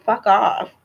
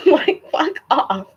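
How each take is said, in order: First: Said in the usual way. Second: Mock dismissive. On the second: Real, not acted. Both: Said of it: "fuck off said twice".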